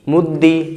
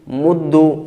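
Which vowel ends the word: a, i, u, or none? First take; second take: i; u. First: The doubled consonant ends with an i vowel. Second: The doubled consonant ends with a u vowel. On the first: "कसरा" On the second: "दमा"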